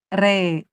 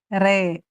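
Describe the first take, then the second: First: The vowel is an e sound. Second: The vowel is an e sound.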